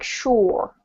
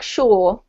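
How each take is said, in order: First: "sure" with an American R; US accent. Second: "sure" like "shaw", no R sound; British accent. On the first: Teacher contrasting accents for a student, US accent. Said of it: "in a U S accent, this word's more like". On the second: Teacher contrasting accents for a student, British accent. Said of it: "in British accent, it's more like". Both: Shown as a demonstration.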